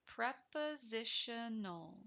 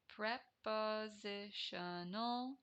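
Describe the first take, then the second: First: Prepositional said slowly, every syllable clear. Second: Prepositional stretched very slowly, each syllable apart; drawn-out sounding out. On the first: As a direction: spell out prepositional with your voice. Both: Shown as a demonstration. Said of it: "teacher sounds out new term".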